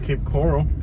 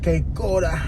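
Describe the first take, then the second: First: Said with a plain American English accent. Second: Said with a Cuban Spanish accent.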